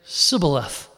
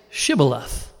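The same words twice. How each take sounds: First: "Sibboleth" with an opening s in place of sh; mispronunciation. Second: "Shibboleth" said slowly with an opening sh sound; correct pronunciation. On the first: Ephraimite failing the test, "Sibboleth" with s for sh. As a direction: say "Sibboleth", a plain hissed S to start. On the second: Men of Gilead testing a fugitive, "Shibboleth" with clear sh. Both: Shown as a demonstration. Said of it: "he could not pronounce it right".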